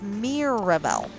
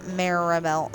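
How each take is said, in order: First: The first syllable has an 'i' vowel. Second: The first syllable has an 'a' vowel. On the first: The speaker calls it right. "it's Mirabelle. It has an I" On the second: The speaker calls it wrong. "people say Maribel. It's not Maribel"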